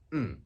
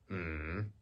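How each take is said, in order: First: The pitch falls sharply from high to low. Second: The pitch dips down and then rises. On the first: "the fourth one is a falling tone" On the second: "falling and then rising"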